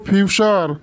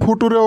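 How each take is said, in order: First: It is said as two syllables, fyoo-cher. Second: It is said as three syllables, foo-too-ray. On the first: The speaker calls it right. "ওটার উচ্চারণ হবো ফিউচার" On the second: The speaker calls it wrong. "ওটার উচ্চারণ ফুটুরে হবো না"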